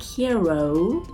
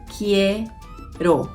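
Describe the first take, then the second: First: The final O vowel is drawn out long. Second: The final O vowel is kept short. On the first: The speaker calls it wrong. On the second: The speaker calls it right.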